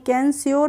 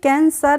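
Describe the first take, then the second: First: It starts with a k sound, ending 'syor'. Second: It starts with a k sound, ending 'sar'. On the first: "कैंस्योर नहीं पढ़ेंगे" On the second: "कैंसर नहीं"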